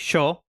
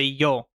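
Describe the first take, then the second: First: The first sound is like English 'sh'. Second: The first sound is like English 'y'.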